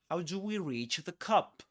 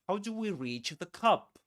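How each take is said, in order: Both takes have the same delivery.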